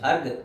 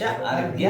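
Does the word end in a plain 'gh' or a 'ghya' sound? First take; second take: gh; ghya. First: The word ends in a plain 'gh' sound. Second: The word ends in a 'ghya' sound. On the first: The speaker calls it wrong. "विशेष अर्घ स्थापन नहीं" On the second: The speaker calls it right. "विशेष अर्घ्य"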